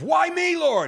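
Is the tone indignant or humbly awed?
indignant. It sounds indignant, like a complaint.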